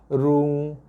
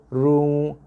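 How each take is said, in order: The two takes are said the same way.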